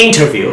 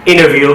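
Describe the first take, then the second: First: ইন্টারভিউ as "IN-tah-view"; British crisp "nt" in ইন্টারভিউ. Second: ইন্টারভিউ as "INNER-view"; American N-only middle in ইন্টারভিউ; American dropped T. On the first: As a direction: sound the T fully in ইন্টারভিউ. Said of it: "British অ্যাকসেন্টে কিন্তু টি এর". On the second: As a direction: drop the T after N in ইন্টারভিউ. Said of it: "এখন আমেরিকানে কীভাবে উচ্চারণটা দেখেন". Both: Shown as a demonstration.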